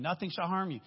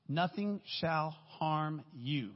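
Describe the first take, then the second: First: "harm" hit hardest, said at normal pace; stress on harm. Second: "Nothing" stretched long and leaned on, the whole line very slow; slow solemn emphasis. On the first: Preacher repeating the verse, now stressing "harm". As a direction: punch "harm" quickly and firmly. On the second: Preacher to congregation, slowly stressing "Nothing". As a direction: drag out "Nothing" then let the line fall. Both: Shown as a demonstration. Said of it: "You guys are gonna remember that".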